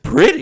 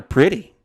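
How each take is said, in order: First: High, loud burst of disbelief; incredulous echo. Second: Said in the usual way. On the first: Retold or imitated. Customer hears bladder stones called pretty, loudly incredulous. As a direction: squawk it back as a question.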